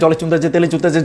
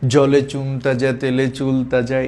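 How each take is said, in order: First: The phrase is said very fast and repeated. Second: The phrase is said slowly and deliberately. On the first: The speaker calls it right. "অনেক দ্রুততার সাথে করতে হবে। যেমন" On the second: The speaker calls it wrong. "এভাবে করলে হবে না"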